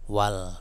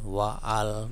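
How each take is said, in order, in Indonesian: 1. Kata-katanya menyambung tanpa hamzah. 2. Hamzah pada 'al' dilafalkan terpisah. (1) "maka bacanya wal" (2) "bukan wa'al, bukan"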